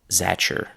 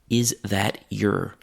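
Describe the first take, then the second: First: T and y merge into ch, giving zatcher. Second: Your is reduced to a short uh sound. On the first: This is the most casual form. "the t and the y sounds have mixed into a ch sound" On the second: This is slightly less formal. "The long O in your is now an uh sound"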